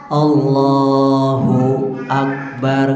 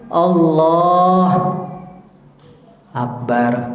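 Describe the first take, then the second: First: The two words run together without a pause. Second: There is a pause between the two words.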